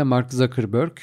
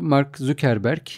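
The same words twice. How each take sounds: First: Zuckerberg said "Za-kır-börk"; English-style Zuckerberg. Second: Zuckerberg read as spelt, "Zükerberk"; Turkish-style Zuckerberg. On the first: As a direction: say Zuckerberg the English way, with an open first vowel. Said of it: "bir başka deyişle". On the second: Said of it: "telaffuzlara çok takılmayalım". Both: Shown as a demonstration.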